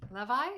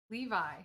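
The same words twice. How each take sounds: First: "Levi?" with a short e, LEH-vye. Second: Said in the usual way. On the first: Shown as a demonstration. Trying chat's pronunciation aloud, "Levi?" as LEH-vye. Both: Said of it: "How, how do you say it?".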